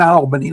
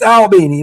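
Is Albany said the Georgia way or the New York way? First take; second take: New York way; Georgia way. First: Albany is said the way New Yorkers say it. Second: Albany is said the way Georgians say it. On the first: It names the city in New York. "like we have in New York" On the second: It names the city in Georgia. "It's Albany"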